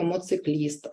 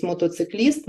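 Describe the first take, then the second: First: «моцикліст» with the syllable то dropped; «моцикліст» shortened child's version; child's slip. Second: Said in the usual way. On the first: Shown as a demonstration. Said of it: "ми чуємо". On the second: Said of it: "замість".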